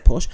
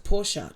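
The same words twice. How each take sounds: First: Porsche her way, as "porsh"; one-syllable Porsche. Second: Porsche slowly as "POR-shuh"; two-syllable Porsche. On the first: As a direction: say Porsche with no final vowel. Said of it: "see, I say Porsche". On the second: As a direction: sound both syllables of Porsche, ending in "uh". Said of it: "two syllables". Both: Shown as a demonstration.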